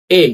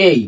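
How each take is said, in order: First: "এ" said short, as learners used to; short old-style A. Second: "এই" stretched into a gliding ay; long, drawn-out A. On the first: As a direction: say "এ" as a short plain vowel, not drawn out. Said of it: "এ উচ্চারণ আগে করতাম". (ছোট করে, টান ছাড়া "এ") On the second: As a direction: draw out "এই" so it glides from e to i. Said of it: "একটু long, একটু টান দিতে হবে". (একটু টান দিয়ে লম্বা "এই") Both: Shown as a demonstration.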